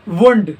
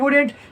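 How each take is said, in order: First: The middle syllable is cut short and reduced. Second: The middle syllable is fully pronounced. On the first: The speaker calls it right. "यूज होता है वुंड" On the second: The speaker calls it wrong. "अगर कोई use करता है वुडेंट तो वो गलत है"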